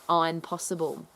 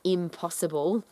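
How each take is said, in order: First: It is split, with the stress moved. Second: It is said as one ordinary word. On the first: The speaker can do it. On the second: Something cannot be done.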